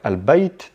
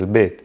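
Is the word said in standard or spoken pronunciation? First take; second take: standard; spoken. First: The word has the standard 'al' and 'ay' sounds. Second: The word has the relaxed 'il' and 'ee' sounds. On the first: This is the formal standard form. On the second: This is the everyday spoken form.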